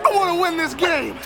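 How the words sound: It is said loudly, with clear excitement. The speaker calls it right. "Now that's more like it"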